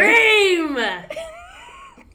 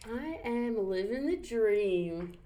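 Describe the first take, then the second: First: It is said brightly, with enthusiasm. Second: It is said flatly, without enthusiasm. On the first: The speaker calls it right. "That's more like it" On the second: The speaker calls it wrong. "You didn't sound very enthusiastic if you're living the dream"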